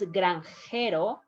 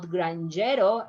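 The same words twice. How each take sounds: First: The J is a breathy H sound. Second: The J is an English J sound. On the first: The speaker calls it right. "is granjero" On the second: The speaker calls it wrong. "is not granjero"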